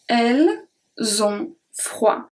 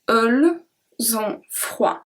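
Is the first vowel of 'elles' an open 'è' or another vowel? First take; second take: open è; other. First: The first vowel is an open 'è' sound. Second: The first vowel is a different, non-open sound. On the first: The speaker calls it right. "The first E is a E" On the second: The speaker calls it wrong. "I don't say elles ont froid"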